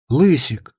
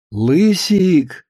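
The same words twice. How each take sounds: First: Concerned wife, understated; mildly alarmed. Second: Sweet, lilting phone call to husband; cooing wife. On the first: Wife hearing her husband's short answers, mildly alarmed. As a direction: say the pet name with a touch of worry. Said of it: "встревожилась Кукуша". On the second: Wife ringing her husband with an errand, cooing. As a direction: coo the pet name. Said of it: "зажурчала трубка кукушиным голосом". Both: A narrator's reading.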